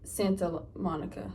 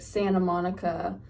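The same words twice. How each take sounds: First: The T in Santa is pronounced. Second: The T in Santa is dropped.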